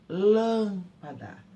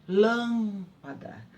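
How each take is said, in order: No difference in how they are said.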